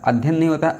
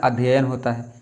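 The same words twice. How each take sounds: First: "अध्ययन" higher, squeezed to adh-yan with one y; wrong shortened form. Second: "अध्ययन" with both y sounds, adh-ya-yan; correct full form. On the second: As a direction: say "अध्ययन" giving the double y its room. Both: Shown as a demonstration. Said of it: "दो या लगेंगे अध्ययन में".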